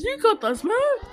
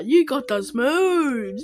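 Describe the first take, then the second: First: Higher, playful cartoon voice; sing-song it like a hype friend; playful put-on voice. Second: Said in the usual way. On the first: Shown as a demonstration. Praising Andorra's dance, higher playful voice. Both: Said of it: "said twice differently".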